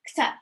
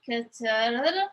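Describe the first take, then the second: First: The word is said quickly and smoothly. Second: The word is said slowly and carefully. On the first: The speaker calls it right. "if you say this faster without overthinking, it's going to come out right" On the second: The speaker calls it wrong. "If you try to say it slowly, like it's going to be hard for you to pronounce right"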